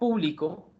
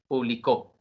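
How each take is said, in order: First: The stress is on the first syllable. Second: The stress is on the last syllable.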